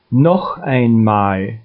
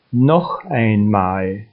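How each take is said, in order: Both takes have the same delivery.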